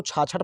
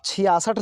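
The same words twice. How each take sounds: First: छाछठ as chhaa-chhath; doubled chh in two-syllable छाछठ; mistaught sixty-six. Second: छियासठ as chhi-yaa-sath; three syllables with s in छियासठ; correct sixty-six. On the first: Retold or imitated. Teacher quoting the wrong teaching, छाछठ as chhaa-chhath. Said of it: "ये भी गलत है". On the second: Shown as a demonstration. Teacher reading the written numeral, छियासठ as chhi-yaa-sath. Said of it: "छियासठ लिखा हुआ है".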